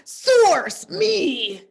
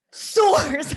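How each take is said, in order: First: High, loud SOURCE, me; dramatic announcer. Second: High, loud, drawn-out SOURCE; dramatic announcer. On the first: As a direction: proclaim it grandly, half laughing. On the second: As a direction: boom out source like a proclamation. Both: Pretend. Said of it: "I just can't stop saying it like that".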